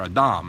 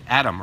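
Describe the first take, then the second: First: The name is pronounced the Hebrew way. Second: The name is pronounced the English way.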